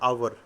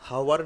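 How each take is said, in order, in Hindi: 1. शब्द स्वर ध्वनि से शुरू होता है, h नहीं। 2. शब्द एक स्पष्ट h ध्वनि से शुरू होता है। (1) "एच यदि साइलेंट है" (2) "हावर बोलोगे तो वो प्रोनाउंसिएशन गलत है।"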